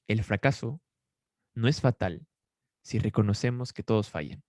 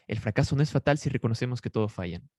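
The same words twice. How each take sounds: First: "El fracaso" "no es fatal" "si reconocemos que todos fallan" in short chunks with long pauses; spaced-out dictation pace; slow dictation. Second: Said in the usual way. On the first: Shown as a demonstration. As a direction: read it out phrase by phrase for note-taking. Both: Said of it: "Si puedes escribirlo allí".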